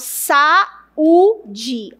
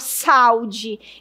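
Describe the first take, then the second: First: The two vowels are said as separate syllables. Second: The two vowels merge into one syllable. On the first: The speaker calls it right. "eu falo saúde ... os dois sons são fortes" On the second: The speaker calls it wrong. "Eu não falo saúde"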